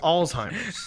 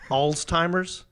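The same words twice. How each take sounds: First: No 't' sound is heard before 'heimer'. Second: A 't' sound is heard before 'heimer'. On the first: The speaker calls it right. "there's no T in Alzheimer's. No, it's Alzheimer's" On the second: The speaker calls it wrong. "it's not Alzheimer's"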